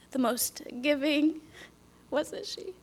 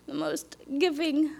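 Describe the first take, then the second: First: The most giving whispered soft and slow. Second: Said in the usual way. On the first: Real, not acted. Praising her late mother, whispered. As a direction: hush the words the most giving.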